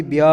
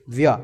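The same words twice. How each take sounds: First: व्य with its final 'a' fully sounded; full vowel. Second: व्य cut short, final vowel dropped; half sound. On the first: Teacher showing the complete syllable, व्य with full vowel. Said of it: "तभी व्य पूरा हो जाएगा". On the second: Teacher showing the syllable without its vowel, व्य cut short. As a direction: say व्य lower, as an incomplete syllable. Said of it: "नहीं तो ऐसा हो जाएगा". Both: Shown as a demonstration.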